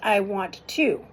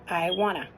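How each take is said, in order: First: Both words of 'want to' are said separately. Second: 'Want to' is run together into 'wanna'. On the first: This is careful, proper speech. "He speaks properly" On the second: This is casual everyday speech. "not I wanna"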